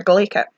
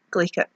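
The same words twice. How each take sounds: First: "glaikit" said GLAY-kit with a rising end; Scottish "glaikit", taught to viewers; Scots word glaikit. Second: "glaikit" said soft, falling, as a wrap-up; quiet Scottish "glaikit" recap; Scots word glaikit. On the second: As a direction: repeat "glaikit" quietly to close. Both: Shown as a demonstration. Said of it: "Word for you there".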